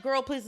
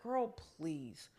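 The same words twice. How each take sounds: First: Dismissive. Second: Low, soft, drawn-out retort; languid, not dismissive. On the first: Shown as a demonstration. Host shows the reading she doesn't mean, briskly dismissive. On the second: Retold or imitated. She answers the threat to hurt her, languidly unbothered. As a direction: let it sink low and unhurried. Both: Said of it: "isn't dismissive".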